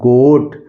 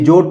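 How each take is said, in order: First: The word begins with a hard g sound. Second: The word begins with a j sound. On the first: The speaker calls it right. "ये हो गया गोट" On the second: The speaker calls it wrong. "ये जोट नहीं होगा"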